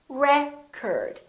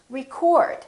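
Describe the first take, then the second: First: The stress is on the first syllable. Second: The stress is on the second syllable. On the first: It is a noun. "if it's a noun, it's pronounced as record. The first syllable is stressed" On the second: It is a verb. "If it's a verb, this word is pronounced record"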